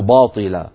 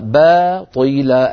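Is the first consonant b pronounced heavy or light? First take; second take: heavy; light. First: The b is heavy and thick. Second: The b is light and thin. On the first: The speaker calls it wrong. "ولا نقول باطلا، باء باء العرب لا تفخم الباء أبدا" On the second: The speaker calls it right. "الباء مرققة والطاء مفخمة"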